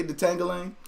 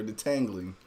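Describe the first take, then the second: First: "detangling" with the jangling-style ending; her pronunciation. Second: "detangling" said the expected way, without twang; the other pronunciation. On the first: Retold or imitated. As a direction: copy her twangy "detangling" for the listeners. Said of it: "Do y'all say detangling? Or". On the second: Shown as a demonstration. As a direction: offer "detangling" plainly as the alternative. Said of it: "Or detangling".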